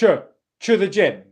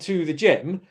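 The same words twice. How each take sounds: First: The t is rounded and sounds like ch. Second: The t is a plain t with unrounded lips. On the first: The speaker calls it wrong. "they say ch, ch" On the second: The speaker calls it right. "which is a T sound followed by a schwa sound"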